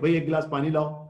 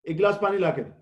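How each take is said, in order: First: It is said in a polite tone. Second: It is said in a harsh tone.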